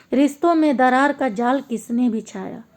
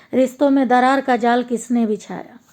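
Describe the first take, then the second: The two takes are said the same way.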